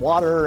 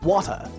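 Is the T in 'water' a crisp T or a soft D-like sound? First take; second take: D-like; crisp T. First: The T is softened into a D-like sound. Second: The T is hit sharply and clipped. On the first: "we often pronounce the T in words like rider and water as D's" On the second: "transatlantic speakers will hit that T like it stole something"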